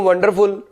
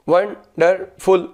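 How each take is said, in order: First: Said in the usual way. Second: wonderful in three slow parts with pauses; syllable by syllable. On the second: Shown as a demonstration. Teacher shows students the syllables of wonderful, said haltingly part by part. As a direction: break wonderful into वं, डर, फुल, pausing between. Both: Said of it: "इसको रुक रुक कर बोलूँ".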